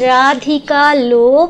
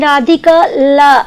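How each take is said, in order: First: The final word ends in an O vowel. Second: The final word ends in an A vowel. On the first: The speaker calls it right. "একদম পরিষ্কার" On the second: The speaker calls it wrong. "তুমি প্রথম লাইনটা দিয়ে বললে"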